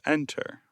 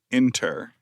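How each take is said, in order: First: The first vowel sounds like the vowel in 'end'. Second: The first vowel sounds like the vowel in 'in'. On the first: "instead of enter" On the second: "I also say inter instead of enter"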